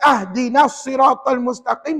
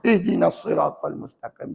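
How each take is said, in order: First: The first word begins with an a vowel. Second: The first word begins with an i vowel. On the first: The speaker calls it wrong. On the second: The speaker calls it right. "Yang betul?"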